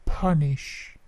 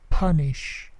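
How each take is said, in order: The two takes are said the same way.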